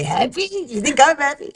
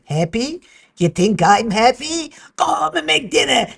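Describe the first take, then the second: First: Lightly imitated Yiddish grandma, higher; mock the family catchphrase like bubby; Yiddish accent. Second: Put-on loud, high old bubby with a Yiddish lilt; Yiddish accent. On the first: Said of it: "we say". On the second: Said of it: "my bubby said".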